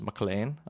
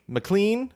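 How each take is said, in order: First: It is said in a Hans Gruber impression. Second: It is said in the speaker's normal voice.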